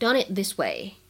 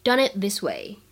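First: The words run together; the t of it is unreleased. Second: The words run together; the t of it is unreleased.

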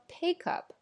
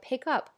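First: The stress is on the word pick. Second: The stress is on the word up.

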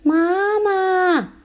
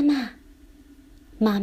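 First: It is shouted at full voice. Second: It is called softly.

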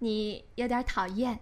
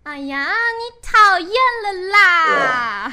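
First: It is said gently, like a graceful goddess. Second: It is said in a cutesy, girlish way.

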